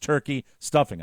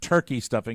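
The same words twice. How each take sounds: First: There is a pause between the two words. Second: The two words run together without a pause. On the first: It names two separate dishes. The speaker calls it right. "I kind of paused there. I said turkey. and stuffing" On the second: It names one dish, stuffing for turkey. The speaker calls it wrong. "it's not turkey stuffing"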